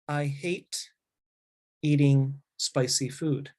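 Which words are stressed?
none. No word is stressed more than the others. "the first way without enunciation"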